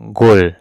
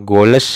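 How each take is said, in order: First: The word ends cleanly on the l sound. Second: An extra syllable follows the l sound. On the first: The speaker calls it right. "tapi dibacanya goal" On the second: The speaker calls it wrong. "tidak dibaca got atau goles atau golet atau got"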